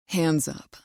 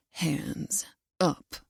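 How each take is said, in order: First: Order. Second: Low, sharp, quieter growled command. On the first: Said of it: "he orders". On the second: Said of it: "he growls, tone sharp". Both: A narrator's reading.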